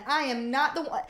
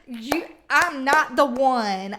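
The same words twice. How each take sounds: First: "not" hit hard in "I am not the one"; stress on not. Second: Louder, slow, drawn-out warning; mock telling someone off; sassy confrontation. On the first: Pretend. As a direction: punch the word "not". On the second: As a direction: lay it down slow like you mean it. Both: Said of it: "walk in the room and be like".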